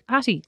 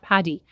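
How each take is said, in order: First: The middle consonant is a clear t sound. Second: The middle consonant is a d-like sound. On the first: "they pronounced it specifically with a T" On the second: "It was not Paddy"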